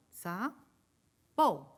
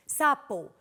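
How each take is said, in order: First: "Sapo" in two beats with a long pause between; split into syllables. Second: Said in the usual way. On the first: Shown as a demonstration. Teacher checking the children's answer, "Sapo" split. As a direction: break "Sapo" slowly after the first syllable. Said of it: "Vamos a ver si lo hacemos igual". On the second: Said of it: "Separen ustedes en sus casas sapo".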